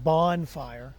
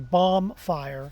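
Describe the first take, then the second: First: The first part sounds like 'bon'. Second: The first part sounds like 'bomb'. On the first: The speaker calls it right. "instead of bonfire" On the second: The speaker calls it wrong. "some people say bomb fire"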